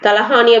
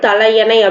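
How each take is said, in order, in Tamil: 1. இது பேச்சு வழக்கில் 'talahaani' என்று, h உடன் சொல்லப்படுகிறது. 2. இது தரமான வடிவத்தில் 'talaiyanai' என்று, y உடன் சொல்லப்படுகிறது. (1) "பேச்சு வழக்குல சொல்றது" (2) "கரெக்டான ப்ரொனன்சியேஷன்"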